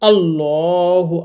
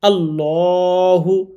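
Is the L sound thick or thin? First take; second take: thick; thick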